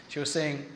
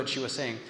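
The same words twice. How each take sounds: The two takes are said the same way.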